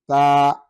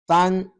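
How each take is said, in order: First: The syllable ends on a long open vowel. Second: The syllable ends with an n sound. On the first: The reciter pauses or stops here. "the second will ... be representing the uh, pausing mode" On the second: The recitation continues without stopping. "The first one will be serving as what? As recitation mode"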